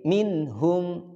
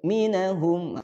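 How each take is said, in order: First: The n and h join with no vowel between. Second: An extra vowel is inserted between n and h. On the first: The speaker calls it right. "Jadi minhum" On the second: The speaker calls it wrong. "Kalau tawalud bagaimana? Minahum, bukan minahum"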